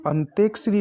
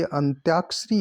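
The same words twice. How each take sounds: First: अंत्यक्षरी as "ant-ek-shree"; e sound after t in अंत्यक्षरी; wrong pronunciation. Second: अंत्याक्षरी with long "tyaa"; correct pronunciation. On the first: Teacher showing the error, अंत्यक्षरी as "antekshree". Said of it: "नहीं होता". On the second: Teacher correcting the word, अंत्याक्षरी with tyaa. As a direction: say अंत्याक्षरी as "ant-yaak-shree". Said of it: "या लिखा जाएगा". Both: Shown as a demonstration.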